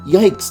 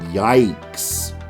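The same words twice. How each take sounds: First: It sounds frightened and alarmed. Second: It sounds mocking and condescending. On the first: The speaker finds something frightening. "It used to mean, like, that's scary" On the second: The speaker is looking down on someone. "something you say on Twitter to be condescending"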